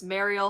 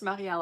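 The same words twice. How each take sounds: First: Said in the usual way. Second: Marielle said the French way; French accent. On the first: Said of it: "but Marielle maybe". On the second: Shown as a demonstration. Streamer unsure of a viewer's name, French accent. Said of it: "say it with the French accent".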